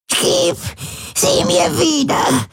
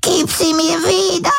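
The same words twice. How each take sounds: First: Much higher, slow, begging; an old woman pleading through pain. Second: Much higher, crying demand; an old woman sobbing to get it back; sobbing plea. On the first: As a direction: beg for it back, drawn out. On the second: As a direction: beg through tears. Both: A narrator's reading. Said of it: "wimmerte sie".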